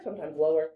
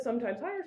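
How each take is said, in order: First: Lower pitch. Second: Lifted a little on higher; higher pitch. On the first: Teacher demonstrating intonation, dropping her pitch low. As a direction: lower dropped over four semitones. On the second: Teacher demonstrating intonation, lilting the pitch upward. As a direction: let higher float up a bit. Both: Shown as a demonstration. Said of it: "it should sound a little bit".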